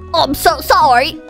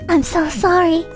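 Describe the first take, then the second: First: It is said in a put-on voice for Harry. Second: It is said in the reader's normal voice.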